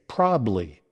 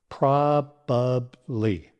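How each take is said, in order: First: The middle syllable is dropped, giving two syllables. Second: All three syllables are clearly pronounced. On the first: The speaker calls it wrong. "drop in the second syllable entirely" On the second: The speaker calls it right. "make sure to enunciate all three syllables"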